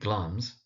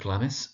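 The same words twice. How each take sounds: First: The i in the name is silent. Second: The i in the name is sounded. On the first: The speaker calls it right. "but it is actually Glamis" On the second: The speaker calls it wrong. "because it's spelt with an I, is sometimes mispronounced as Glamis"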